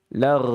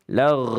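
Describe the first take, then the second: The two takes are said the same way.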